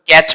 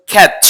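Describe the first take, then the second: First: ক্যাচ with a plain hard k, no puff of air; common mispronunciation. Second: ক্যাচ with a breath-puffed k, as in "khech"; teacher's model ক্যাচ, airy k and open vowel; correct pronunciation. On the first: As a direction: say ক্যাচ with an unaspirated k, the everyday local way. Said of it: "আমরা এটাকে সচরাচর ক্যাচ বলে থাকি". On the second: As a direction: aspirate the opening k of ক্যাচ. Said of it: "এটা উচ্চারণ হচ্ছে ক্যাচ". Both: Shown as a demonstration.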